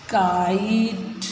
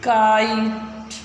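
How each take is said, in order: First: kite drawn out slowly, each sound clear; teacher modelling kite slowly; slow model word. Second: Teacher repeating kite slowly. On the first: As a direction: stretch kite out slowly for the class to copy. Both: Shown as a demonstration. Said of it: "अब देखो इनको फिर पढ़ो".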